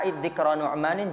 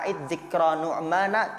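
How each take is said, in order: First: The name ends with an added final n sound. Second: The name ends without a final n sound. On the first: "Nu'manin dia ditanwin" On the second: "Kalau dibaca a'id dzikra nu'mana cocok aja"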